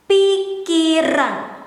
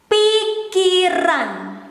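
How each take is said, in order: Both takes have the same delivery.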